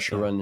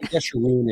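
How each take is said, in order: First: The name begins with a J sound. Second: The name begins with a Y sound. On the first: This is the English form of the name. "in English is fine" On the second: This is the Hebrew form of the name. "in Hebrew"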